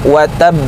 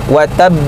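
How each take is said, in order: Both takes have the same delivery.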